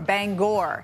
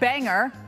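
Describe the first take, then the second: First: The second syllable rhymes with store. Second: The second syllable rhymes with hanger. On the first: This is the city in Maine. "It rhymes with store" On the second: This is the city in Washington. "like hanger"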